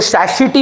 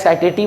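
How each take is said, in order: First: The middle consonant is a sh sound. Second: The middle consonant is a t sound. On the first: Some English-style speakers say it this way. "कुछ अंग्रेज बच्चे होते हैं तो बोलते हैं इसको सैशिटी बोलिए" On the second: This is the form the speaker prefers. "हमको तो शायद लगता है सैटिटी बोलना चाहिए"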